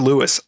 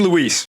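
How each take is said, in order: First: The name is said like English 'Lewis'. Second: The name is said like Spanish 'Luis'. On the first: The speaker calls it wrong. "Leon calls Luis Lewis" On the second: The speaker calls it right. "I mean, Luis"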